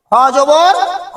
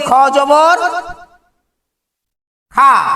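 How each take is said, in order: First: The final vowel is short, without an 'aa' sound. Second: The final vowel is a long open 'aa' sound. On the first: The speaker calls it right. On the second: The speaker calls it wrong.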